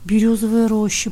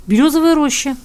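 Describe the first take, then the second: First: Lingering repeat of «Берёзовая роща»; drawn out. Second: Said in the usual way. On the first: A narrator's reading. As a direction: draw out «Берёзовая роща» thoughtfully. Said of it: "протянул Ивка". (протяжно)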